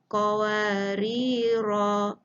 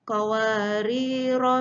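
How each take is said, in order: First: The final vowel is held long before stopping. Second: The final vowel is short, running into the next word. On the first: The reciter stops at this word. "Apabila waqaf mesti dibaca dengan dua harakat" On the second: The reciter continues without stopping. "Apabila bersambung, tidak dibaca"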